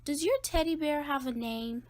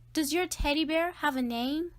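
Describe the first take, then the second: First: Said in the usual way. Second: Asking louder, a bit higher. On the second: Acted. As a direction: repeat it louder so he hears. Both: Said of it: "I said louder".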